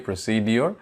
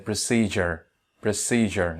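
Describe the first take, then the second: First: "procedure" said as pro-SEE-dee-or; "procedure" ending in "dior" instead of "jer"; common mispronunciation. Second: "procedure" said as pruh-SEE-jer; correct pronunciation. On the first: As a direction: say "procedure" with a separate d sound, "-dior". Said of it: "আমরা অনেক ক্ষেত্রে বলে থাকি". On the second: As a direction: say "procedure" with a j sound for the d. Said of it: "এটার উচ্চারণটা হচ্ছে". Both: Shown as a demonstration.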